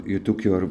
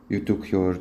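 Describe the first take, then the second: No difference in how they are said.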